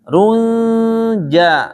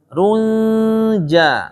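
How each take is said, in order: The two takes are said the same way.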